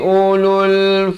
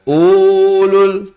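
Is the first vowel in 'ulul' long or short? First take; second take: short; long. First: The first vowel is short, one beat. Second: The first vowel is held for two beats. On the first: The speaker calls it right. "hanya ada pada tulisan, tidak pada bacaan" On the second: The speaker calls it wrong. "ramai yang tersilap dia baca dua harakat. Ulul tak betul"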